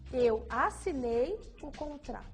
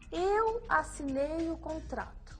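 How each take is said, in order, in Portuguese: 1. A palavra assinei é enfatizada. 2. A palavra eu é enfatizada. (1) "depois assinei" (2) "Faça um gesto para reforçar a palavra eu"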